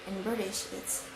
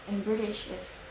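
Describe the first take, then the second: The two takes are said the same way.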